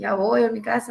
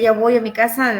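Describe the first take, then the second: First: It is said in a reluctant, weary tone. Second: It is said in a cheerful, glad tone. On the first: Going home is an unwelcome chore. The speaker calls it wrong. "así como que yo creo que, ay" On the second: Going home is something to look forward to. The speaker calls it right. "con gusto y con, con alegría"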